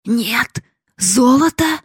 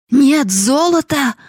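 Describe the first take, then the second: First: High, slow, disbelieving question; old miser asking again, stunned; stunned disbelief. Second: High, loud, slow howl of NO GOLD; old father howling in outrage; howling old man. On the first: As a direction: ask it like you can't believe your ears. Father repeats in disbelief. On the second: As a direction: yell it out like a shocked miser. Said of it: "завопил старик". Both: Acted.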